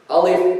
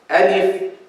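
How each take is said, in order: First: The vowel is heavy, full and dark. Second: The vowel is light, thin and bright. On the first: The speaker calls it wrong. "So you don't say alif" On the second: The speaker calls it right. "You say alif"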